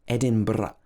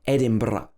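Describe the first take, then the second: First: The R is rolled with a trill. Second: The same.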